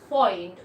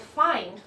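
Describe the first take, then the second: First: The vowel sounds like 'oy'. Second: The vowel sounds like 'eye'. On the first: "you can hear a lot of oi" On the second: "not find"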